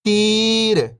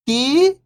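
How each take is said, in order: First: Whole word, level then falling at the end; syllables blended. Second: First syllable lifting, pause, second falling. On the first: Teacher showing beginners the joined word, syllables blended. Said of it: "इनको आपस में लाके पढ़ना है". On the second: Teacher breaking a word down for beginning readers, syllable by syllable. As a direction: sound out each syllable alone, long and separated. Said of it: "एक अक्षर का उच्चारण करके". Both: Shown as a demonstration.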